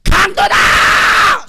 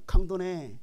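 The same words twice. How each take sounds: First: Long, high, loud yell; alarm shout. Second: Said in the usual way. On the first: Shown as a demonstration. Preacher showing how to yell at a robber, alarm shout. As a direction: scream it out to scare off a robber. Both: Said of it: "소리 지르라니까".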